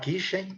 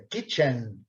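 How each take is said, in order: First: The final N sound is weak. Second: The final N sound is strong. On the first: The speaker calls it wrong. "Cuidado para não falar kitchen" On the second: The speaker calls it right. "dando destaque forte no N"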